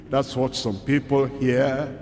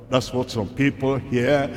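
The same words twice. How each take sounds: The two takes are said the same way.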